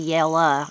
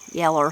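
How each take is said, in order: First: The word ends with a plain 'uh' sound. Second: The word ends with an r-colored 'er' sound. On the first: "I put the A instead of an E R" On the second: "put that E R"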